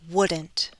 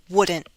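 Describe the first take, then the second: First: The T is fully released. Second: The T is a glottal stop. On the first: "with a true T" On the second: "With a glottal stop"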